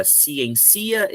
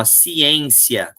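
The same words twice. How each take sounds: First: "ciencia" wrongly stressed like economia; stress pulled to the end. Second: "ciência" stretched, stressed ci-EN-cia. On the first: Teacher testing the word's pronunciation for students, "ciencia" stressed ci-en-CI-a. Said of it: "Eu vou pronunciar agora". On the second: Teacher correcting the pronunciation for students, "ciência" stressed on EN. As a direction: say "ciência" slowly, leaning on the EN. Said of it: "é essa que é a tônica". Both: Shown as a demonstration.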